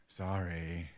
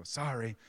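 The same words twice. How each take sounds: First: Put-on lower, drawn-out child's sorry; slow, subdued imitated apology; made-to-mean-it apology. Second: Child's perfunctory sorry, imitated; grudging kid's quick apology; insincere apology. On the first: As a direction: stretch the sorry out obediently, imitating a kid. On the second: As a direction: toss off a sorry without meaning it. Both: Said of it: "say it like you mean it".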